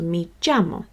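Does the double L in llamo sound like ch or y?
ch. The double L sounds like ch. This is how some places in South America say it. "it's more like a ch sound"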